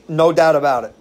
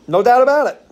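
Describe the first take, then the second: First: Said in the usual way. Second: A much higher, louder tough-guy repeat of the line; mob boss echo. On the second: Retold or imitated. Echoing the mafia pastor, loud put-on tough-guy voice. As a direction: bark it back like a wiseguy.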